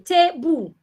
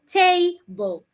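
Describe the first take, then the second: First: Both syllables are equally strong. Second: One syllable is stronger than the other.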